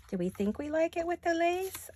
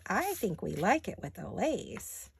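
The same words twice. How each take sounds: First: Higher-pitched, playful self-questioning; musing question. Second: Slow, playful verdict with swooping tune; decided answer. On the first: Crafter asking herself about the lace, high questioning tune. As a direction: lift "Do we think we like it" high, as a question. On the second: Crafter settling her own lace question, slow and decided. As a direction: draw out "I think we like it" as the answer. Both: Real, not acted.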